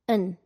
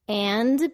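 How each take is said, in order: First: The word is reduced to a schwa sound. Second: The word is pronounced with a full vowel.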